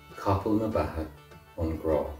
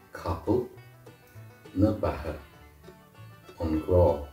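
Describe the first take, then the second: First: The phrase is spoken at normal speed. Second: The phrase is spoken slowly.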